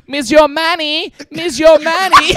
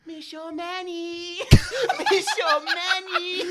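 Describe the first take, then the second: First: Loud, slow, high yell in a mock French accent. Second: Much softer, slow, high and faint, as if from far off; a creepy faint call from down the hall, half laughing; heard from the distance. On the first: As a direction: bellow it across the room, drawn out. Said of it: "starts yelling out". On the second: Retold or imitated. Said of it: "In the distance".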